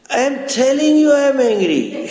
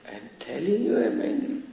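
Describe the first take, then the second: First: It is said louder, with the voice rising. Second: It is said at a calmer, lower volume.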